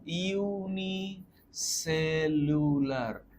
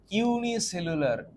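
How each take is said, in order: First: ইউনিসেলুলার stretched very slowly; drawn-out word. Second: ইউনিসেলুলার said slowly and a bit higher; slow emphatic. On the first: Teacher drawing out ইউনিসেলুলার for English version students. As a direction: draw out every syllable of ইউনিসেলুলার. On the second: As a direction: spell out ইউনিসেলুলার for them. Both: Shown as a demonstration. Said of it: "English version students".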